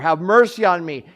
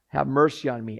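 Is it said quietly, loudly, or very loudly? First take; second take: very loudly; quietly. First: It is said loudest of all. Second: It is said at a lower volume.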